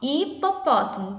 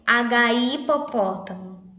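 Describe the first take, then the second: First: The word starts directly, with no H sound. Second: The letter H is sounded before the word. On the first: The speaker calls it right. "só hipopótamo, porque a letrinha H, ela é muda" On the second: The speaker calls it wrong. "nós não podemos ler assim"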